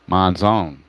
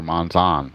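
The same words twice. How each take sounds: First: Monzon ending like "zone"; long-O pronunciation. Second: Monzon ending in an open "zahn"; short-O pronunciation. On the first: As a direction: say Monzon with a long O in the last syllable. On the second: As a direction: say Monzon with an open "ah" in the last syllable. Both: Shown as a demonstration. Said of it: "however you wanna pronounce it".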